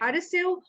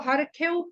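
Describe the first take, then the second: First: The middle consonant is an s sound. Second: The middle consonant is a kh sound. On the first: "तो हमें हरसेउ और बरसेउ पढ़ना चाहिए" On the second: "अगर वो ख की तरह से है शब्द तो हमें ख बोलना चाहिए"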